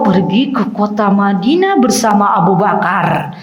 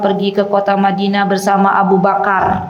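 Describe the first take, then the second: First: It is read with lively, varied intonation. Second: It is read in a flat, even tone. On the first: The listening child is captivated. The speaker calls it right. "kalau eyangnya bilang begini" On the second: The listening child loses interest and leaves. The speaker calls it wrong. "itu kira-kira cucunya lama nggak dengerin eyangnya baca buku? Ditinggal ya"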